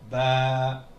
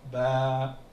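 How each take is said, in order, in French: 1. La voyelle est longue. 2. La voyelle est longue.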